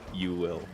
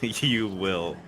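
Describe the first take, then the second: First: It is said in an ominous Yoda voice. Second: It is said in a normal voice.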